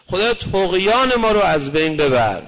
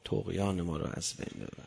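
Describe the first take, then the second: First: Loud, urgent cry to God; pleading prayer. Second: Much lower and much softer, almost breathed; hushed prayer. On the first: Preacher crying out to God in loud prayer. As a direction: call out the plea with force. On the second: Preacher repeating the prayer softly to the congregation. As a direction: drop to a near-murmur on طغیان. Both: Shown as a demonstration.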